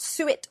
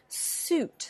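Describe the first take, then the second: First: It sounds like two syllables, suet. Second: It sounds like one syllable, suit. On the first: The speaker calls it wrong. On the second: The speaker calls it right.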